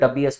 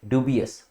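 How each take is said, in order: First: The first syllable sounds like 'dub'. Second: The first syllable sounds like 'dyoo'. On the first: The speaker calls it wrong. "ऐसा नहीं कि आप इसको भी उस हिसाब से डबियस बुलाएंगे" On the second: The speaker calls it right. "This is ड्यूबियस"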